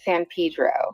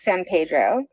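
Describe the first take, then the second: First: The name is said the way local residents say it. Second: The name is said the standard, expected way. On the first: This marks the speaker as from there. "if you're from there, you pronounce it San Pedro" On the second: This is how outsiders expect it said. "it should be pronounced San Pedro"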